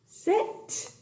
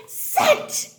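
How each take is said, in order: First: "sit" with the final t set apart; sounding out. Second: "sit" in one very high burst; triumphant blending. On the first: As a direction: sound out "sit" carefully, releasing the t. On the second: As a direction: pop out "sit" high as a whole word. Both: Shown as a demonstration. Sounds out word, then blends.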